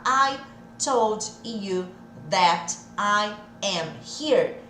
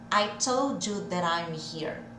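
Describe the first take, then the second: First: Each word is said separately, without linking. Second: The words run together with linked, reduced sounds. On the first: "Ao invés de falar" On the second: "Vamos juntar tudo?"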